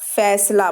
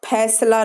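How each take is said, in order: First: The first consonant is an f sound. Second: The first consonant is an aspirated ph sound. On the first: The speaker calls it right. "फैसला बोलेंगे" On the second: The speaker calls it wrong. "फैसला नहीं बोलेंगे"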